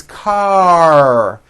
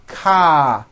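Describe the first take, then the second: First: "car" drawn out and closed on a strong R; strong final R. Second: "ka" left open on an A vowel, R dropped; weak final R. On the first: Teacher corrects ka, "car" stretched to a strong closing R. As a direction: hold "car", tongue pulled back into a long R. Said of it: "The R needs to be very strong". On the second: Teacher shows how foreign speakers say it, "ka" ending openly without R. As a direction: say "ka" unfinished, with no R at the end. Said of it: "ending with an A vowel". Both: Shown as a demonstration.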